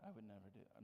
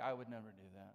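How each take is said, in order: First: Much softer repeat of never do that, fading away; mock denial, trailing off. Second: Lower, prim denial in a lightly put-on voice; mock self-righteous listener. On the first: Imitating a listener again, now much softer and fading. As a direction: let the smug denial fade to a murmur. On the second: Imitating a listener denying anger, lower and prim. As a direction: mimic a smug churchgoer denying it. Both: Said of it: "some of you are like".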